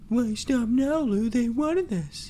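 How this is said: The voice is sultry and seductive.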